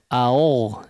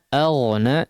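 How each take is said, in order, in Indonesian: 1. Vokal pertama itu membulat, seperti 'au'. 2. Vokal pertama itu terbuka, dengan bibir tidak membulat. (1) "jangan jadi au au ya" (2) "biasa saja, mulutnya tidak perlu dimonyongkan ya"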